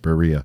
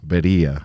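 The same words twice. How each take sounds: First: The word is said with an American accent. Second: The word is said with a Spanish accent. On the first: "that's how the American accent says it" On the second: "I think I'm pronouncing that right"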